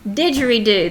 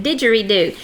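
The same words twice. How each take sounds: First: Didgeridoo said the way her son said it; Jonathan's way of saying it. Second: Didgeridoo, a careful reading for the class; didgeridoo said clearly. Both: Shown as a demonstration. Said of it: "That's what my son Jonathan said".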